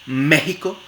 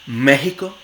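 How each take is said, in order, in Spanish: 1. La x es una h glotal suave. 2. La x es una h glotal suave.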